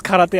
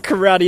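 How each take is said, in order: First: Karate said Japanese-style, "kah-rah-teh"; corrected Japanese karate. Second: Karate said American-style, "kuh-RAH-dee"; American vowels in karate; wrong anglicized karate. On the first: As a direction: say karate with even Japanese vowels. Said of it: "it's karate". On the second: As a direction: give karate the English pronunciation. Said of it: "It's not karate". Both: Shown as a demonstration.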